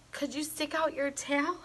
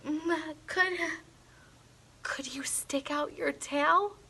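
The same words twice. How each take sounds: First: Softly whispered question. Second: Breathy hushed whisper, nervous. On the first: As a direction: hush it, almost a whisper. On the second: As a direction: whisper it so the monster barely hears. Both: A narrator's reading. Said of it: "I whispered".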